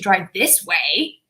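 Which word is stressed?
way. The word way is stressed. A different route was intended. "I'm changing my voice on way. I'm making the way more important"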